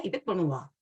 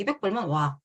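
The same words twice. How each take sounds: First: Said in the usual way. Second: A scornful repeat of the younger husband's jab; mocking condescension. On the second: Wife's younger husband sneering at her offer, mock scorn. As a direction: toss it off dismissively, imitating him. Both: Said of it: "이렇게 얘기를 하는 거예요".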